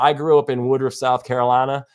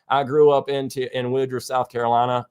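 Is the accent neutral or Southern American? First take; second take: neutral; Southern. First: It is said in the speaker's usual accent. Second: It is said in a Southern American accent.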